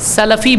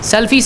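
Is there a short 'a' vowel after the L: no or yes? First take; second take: yes; no. First: The L is followed by a short 'a' vowel. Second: The L has no vowel after it. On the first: The speaker calls it right. "सलफ़ी बोलना चाहिए, लाम के फ़तहा के साथ में" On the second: The speaker calls it wrong. "सल्फ़ी सही नहीं है"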